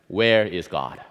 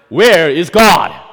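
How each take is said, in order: First: The question is asked at normal volume. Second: The question is asked loudest of all.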